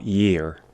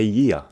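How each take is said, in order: First: It is said with a non-Australian accent. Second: It is said with an Australian accent. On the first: The speaker calls it wrong. "not year" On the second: The speaker calls it right. "In Australian pronunciation, we say year"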